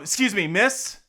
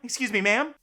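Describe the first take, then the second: First: It is said more firmly and forcefully. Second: It is said lightly and gently.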